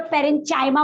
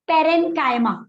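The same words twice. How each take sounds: First: पेरेनचाइमा with CH as in 'chair' instead of K; alternative CH pronunciation. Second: Said in the usual way. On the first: Shown as a demonstration. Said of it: "अब उसको कुछ लोग पेरेनचाइमा बोलेंगे". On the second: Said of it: "जैसे मैं एक simple word बोल रही हूँ".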